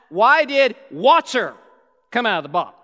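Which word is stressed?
water. The stress is on water.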